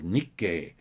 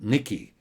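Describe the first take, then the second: First: The name ends with an 'ay' vowel sound. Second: The name ends with an 'ee' vowel sound. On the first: The speaker calls it right. "they have a Japanese news service here called Nikkei" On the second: The speaker calls it wrong. "all of these reports called it Nikki"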